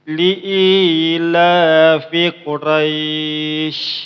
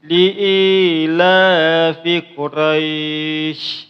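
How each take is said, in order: Both takes have the same delivery.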